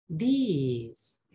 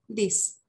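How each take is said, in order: First: THIS stretched into "these", long falling ee; long-vowel these. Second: THIS cut short, brief i; short-vowel this. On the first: Teacher showing the plural against the singular, long vowel. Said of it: "La diferencia". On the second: Teacher giving the singular "this" for contrast, short vowel. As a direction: keep "this" to one short vowel. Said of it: "cuando es singular". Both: Shown as a demonstration.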